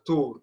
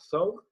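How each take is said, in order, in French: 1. Le mot commence par un son 't' simple. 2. Le mot commence par un son 'th'. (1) "c'est une prononciation euh, dialectale judéo-arabe tunisienne, donc dentale" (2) "qu'on retrouve dans l'arabe littéraire thawr"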